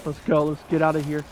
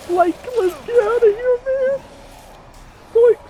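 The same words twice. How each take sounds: First: Said in the usual way. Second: Bad high Shaggy voice, squeaking up; a failed Shaggy impression, pitched way up; badly done high cartoon stoner voice. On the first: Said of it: "I can't do the voice right". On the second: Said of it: "I can't do the Shaggy voice right".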